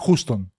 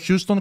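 First: "Houston" without the y-glide, HOO-ston; corrected pronunciation. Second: "Houston" with a y-glide, HYOO-ston; established Greek pronunciation. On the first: Telling friends how it is properly pronounced, "Houston" as HOO-ston. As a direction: say "Houston" as Χούστον. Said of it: "προφέρεται Houston". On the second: Explaining the name that has caught on, "Houston" as HYOO-ston. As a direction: say "Houston" as Χιούστον. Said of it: "Απλά έχει περάσει". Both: Shown as a demonstration.

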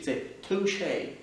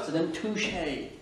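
First: Toucher said slowly the French way, tou-CHÉ with a clear final é; French pronunciation. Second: French word said with a slow English accent. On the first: Teacher showing the correct French toucher to learners. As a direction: give toucher its proper French vowels, slow and careful. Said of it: "C'est pas toucher". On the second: Teacher demonstrating to French learners, slow English accent. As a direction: toucher drawn out the English way, like an anglophone. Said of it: "il faut les dire avec un accent English". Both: Shown as a demonstration.

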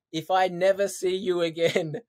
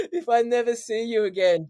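First: Said in the usual way. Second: Higher, louder, laughing through a fake sob; half-laugh, half-cry as he imitates mum; laughing mock tears. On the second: Son imitating mum's farewell, laughing mock-tearful.

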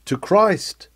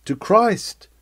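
Both takes have the same delivery.

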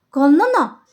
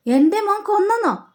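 First: Said in the usual way. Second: എൻ്റെ മോൻ കൊന്നെന്നോ with കൊന്നെന്നോ pitched much higher in shock; shocked disbelief. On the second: Retold or imitated. Mother stunned by news of her son, high shocked disbelief.

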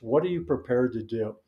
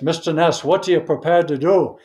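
First: Said in the usual way. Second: Put-on higher, louder Scottish accent, a hard challenge; Scottish accent pressing Mister Ness for an answer; Sean Connery Scottish accent. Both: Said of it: "in a Scottish accent".

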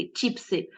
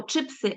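First: Чіпси with an і sound, marked as the error; wrong чіпси. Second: Чипси with a firm и, чи-пси; correct чипси. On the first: Teacher showing students the wrong чіпси. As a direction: say чіпси as the common mistake. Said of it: "а не чіпси". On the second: Teacher modelling the correct чипси for students. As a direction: say чипси the standard way, clear и. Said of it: "ми кажемо чипси, а не чіпси". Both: Shown as a demonstration.

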